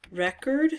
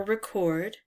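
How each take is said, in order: First: "Record" as REK-erd, stress up front; noun pronunciation. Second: "record" as rih-KORD, stress at the end; verb pronunciation. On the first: Player weighing the words left, "Record" as REK-erd. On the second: Player weighing the other reading, "record" as rih-KORD. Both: Shown as a demonstration. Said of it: "or record".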